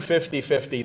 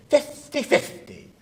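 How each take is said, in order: First: Said in the usual way. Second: High, slow put-on Spanish accent. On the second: Lawyer giving a client the odds, mock Spanish accent. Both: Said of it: "I'll give you a Spanish accent".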